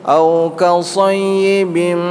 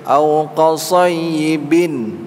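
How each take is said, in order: The two takes are said the same way.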